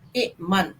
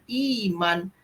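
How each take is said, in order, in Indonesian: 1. Hentian glotis ada di antara i dan m. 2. Bunyi i yang panjang langsung menyambung ke m. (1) "Bentuk asalnya sebenarnya adalah ikman" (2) "yang kita dengar selalunya iman"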